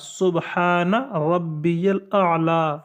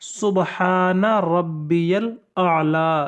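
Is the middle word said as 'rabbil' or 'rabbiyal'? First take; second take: rabbiyal; rabbiyal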